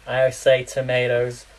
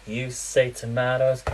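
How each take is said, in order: First: Tomatoes said British, toh-MAH-toes. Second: Tomatoes said American, toh-MAY-toes. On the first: To American viewers, British tomatoes. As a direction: say tomatoes with a long ah. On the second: To American viewers, American tomatoes. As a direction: say tomatoes with an ay sound. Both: Shown as a demonstration. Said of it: "I no longer say tomatoes, I say tomatoes".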